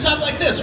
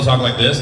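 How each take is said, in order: First: The voice is pitched very high. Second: The voice is pitched lower and natural. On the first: This is the character's voice. "Goku's way up here" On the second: This is a voice that still works. "but I can still talk like this"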